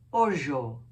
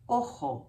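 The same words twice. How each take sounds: First: The word has the Ladino pronunciation. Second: The word has the Spanish pronunciation. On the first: "in Ladino it's ojo" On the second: "in Spanish is ojo"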